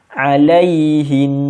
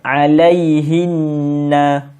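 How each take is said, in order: First: The word ends on a held nasal n sound. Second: The word ends with a short vowel after n. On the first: The reciter stops here. "kalau kita nak berhenti, kena dengung. Dua harakat" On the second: The reciter continues without stopping. "yang tu tak berhenti"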